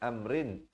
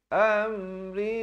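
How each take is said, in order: First: The final N is pronounced fully and clearly. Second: The final N is concealed into a nasal hum. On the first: The speaker calls it wrong. "bukan amrin" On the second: The speaker calls it right. "samarkan ikhfa hakiki"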